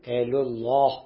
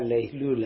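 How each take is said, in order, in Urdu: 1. یہ لفظ بھاری '-ullah' آواز پر ختم ہوتا ہے۔ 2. یہ لفظ ہلکی، سادہ '-ula' آواز پر ختم ہوتا ہے۔ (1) "وہ یوں سمجھتے ہیں کہ یہ بھی کوئی ذبیح اللہ ہے، اس طرح وہ بولتے ہیں" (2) "تو ہمارے یہاں لیلولہ ہے"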